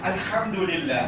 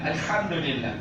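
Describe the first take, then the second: No difference in how they are said.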